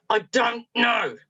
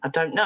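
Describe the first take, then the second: First: Slow, higher, each word separated; exasperated child. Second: Said in the usual way. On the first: Retold or imitated. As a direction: imitate a boy fed up with being pressed. Boy's exasperated final repeat.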